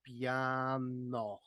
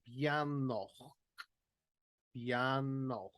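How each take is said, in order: First: "Pianoch" with the end said as a throaty ch, like in loch; Gaelic ch. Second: "Pianoch" ending in a throaty ch as in loch, D said like K; Gaelic ch sound. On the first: Teacher sounding out a scary Gaelic word for learners. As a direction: stretch the "n" and finish on a throaty ch. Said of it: "that word there looks a bit scary". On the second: Tutor repeating the word so the singers copy the ch. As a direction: say "Pianoch" twice, with a clear throaty ch. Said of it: "a C H D is a ch, as in loch". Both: Shown as a demonstration.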